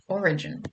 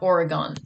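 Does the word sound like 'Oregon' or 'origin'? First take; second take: origin; Oregon. First: The word is said as 'origin'. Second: The word is said as 'Oregon'. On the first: The speaker calls it right. "That that is how you pronounce that word" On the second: The speaker calls it wrong. "not Oregon"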